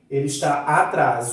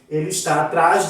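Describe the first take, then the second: First: The first vowel of atrás is clearly heard. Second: The first vowel of atrás is dropped. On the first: The speaker calls it right. "O A tem que ser pronunciado. Eu tenho que ouvir o som" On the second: The speaker calls it wrong. "você não está falando da maneira que devia"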